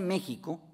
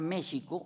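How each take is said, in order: First: The middle consonant is a throaty h sound. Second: The middle consonant is a sh sound. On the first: This is the modern pronunciation. "Si hoy se dice México" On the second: This is the sixteenth-century pronunciation. "por aquel entonces se decía México"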